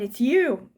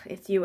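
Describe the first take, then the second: First: It sounds delighted and amazed. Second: It sounds annoyed and fed up. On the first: The person is the one long awaited. "It's more like, oh my God, it's you" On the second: The person is unwelcome. "not like, ugh, it's you again"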